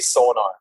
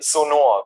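First: The name is pronounced the English way. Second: The name is pronounced the German way. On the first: "in English, I just say Sonar" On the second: "like the German way"

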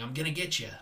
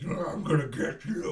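First: It is said in Marty's normal voice. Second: It is said in a demonic voice.

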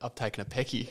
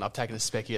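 First: The word is said without its s sound. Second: The word starts with a clear s sound. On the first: This is how it actually came out because of a lisp. The speaker calls it wrong. "Apparently, I've said" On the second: This is what the speaker meant to say. The speaker calls it right. "in my head, I've gone"

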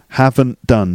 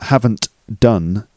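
First: The T and D blend together smoothly. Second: The T and D are said separately. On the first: The speaker calls it right. "See the way the T and the D sort of link up?" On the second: The speaker calls it wrong. "not haven't done"

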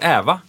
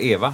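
First: The first vowel is an open ä sound. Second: The first vowel is a closed e sound. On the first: This is the local dialect form. "vi säger ä om alla ord på e" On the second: This is the standard form. "istället för Eva"

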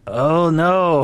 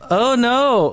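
First: It is said in an old person's voice. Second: It is said in a higher-pitched voice.

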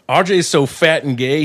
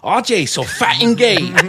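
First: Spoken in the speaker's own normal accent. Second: Spoken in a put-on Asian accent.

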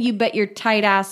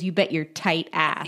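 First: Tight ass runs together as one compound word. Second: Tight ass comes out as two separate words. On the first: The listener is called a stingy, uptight person. The speaker calls it right. "should have been, ... all one word" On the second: The listener's backside is described as tight. The speaker calls it wrong. "the way he said it was"

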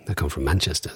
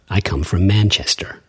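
First: Manchester accent, with no final R sound. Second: General American accent, with the final R pronounced. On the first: "But I don't say that. I say Manchester" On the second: "guy from the United States who doesn't sound like he's from the East Coast would say Manchester"

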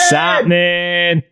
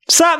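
First: It is said with less energy. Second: It is said with more energy.

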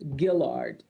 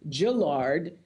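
First: The name begins with a hard G sound. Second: The name begins with a J sound. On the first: The speaker calls it right. "Gill and Lard" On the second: The speaker calls it wrong. "say J instead of Gill"

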